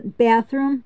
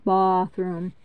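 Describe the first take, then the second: First: Said in the usual way. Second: Bathroom as "bah-throom", low; Canadian-style bathroom with broad AH. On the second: Shown as a demonstration. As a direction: open the A in bathroom to a long AH. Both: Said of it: "the way Canadians talk".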